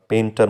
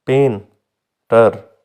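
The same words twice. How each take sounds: First: Said in the usual way. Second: painter slowly split as pen, long pause, ter; two separate syllables. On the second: Shown as a demonstration. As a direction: break painter in two with a clear gap. (Painter के दो syllable अलग-अलग, धीरे) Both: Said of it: "दो syllable से मिलके बना".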